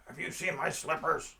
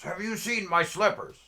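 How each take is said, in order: First: Raised, higher character voice; pestering panhandler. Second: Much higher, louder panhandler voice; insistent repeated question. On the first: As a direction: call out the question as a street oddball. Acting out slipper-wearing panhandler accosting him. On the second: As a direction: shout it at someone who didn't get it. Panhandler repeats question after "What?. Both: Retold or imitated.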